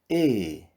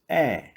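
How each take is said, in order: First: The vowel is said closed, further back. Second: The vowel is said with an open mouth. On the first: "modificam para o som fechado"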